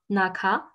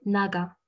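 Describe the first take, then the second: First: "naka" with a hard, unvoiced k in the middle; wrong hard K. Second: "naga" with the k softened to a voiced g. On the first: Teacher showing learners the mistake, hard middle K. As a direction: keep the k of "naka" hard between the vowels. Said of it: "ça se prononce pas naka". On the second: Teacher correcting naka for learners, softened middle G. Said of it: "c'est naga". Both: Shown as a demonstration.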